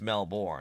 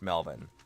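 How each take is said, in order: First: The word is said in a non-Australian way. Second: The word is said the way Australians say it. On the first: The speaker calls it wrong. "it's not pronounced Melbourne" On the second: The speaker calls it right. "it's pronounced Melbourne. What a lot of Aussies would uh, pronounce it as"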